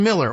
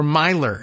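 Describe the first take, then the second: First: "Miller" said MILL-er, with a short i; ordinary MILL-er for "Miller"; plain Miller. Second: "Myler" said MY-ler, with a long eye sound; alternate pronunciation. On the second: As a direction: rhyme "Myler" with "tiler". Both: Shown as a demonstration. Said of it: "if you prefer that pronunciation".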